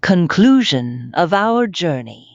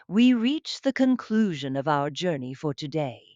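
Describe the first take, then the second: First: Loud, bold title announcement; announced title. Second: Said in the usual way. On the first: Real, not acted. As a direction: announce the heading boldly.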